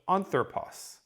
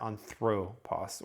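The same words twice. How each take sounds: First: The stress is on the first syllable. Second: The stress is on the second syllable. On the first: The speaker calls it right. "puts the emphasis on this initial syllable" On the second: The speaker calls it wrong. "it's going to put the emphasis there"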